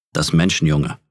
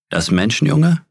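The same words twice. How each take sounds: First: Bear growl. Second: Menschenjunge asked much higher, rising in disbelief; a bear's astonished repeat, pitch climbing; surprised question. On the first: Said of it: "setzte sich auf die Hinterbeine und knurrte". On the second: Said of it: "sagte er". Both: A narrator's reading.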